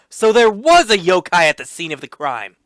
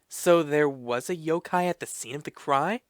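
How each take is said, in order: First: It is said as an exclaiming line. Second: It is said as a questioning line. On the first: "I'll say it with exclamation" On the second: "it seems like that should be a question mark"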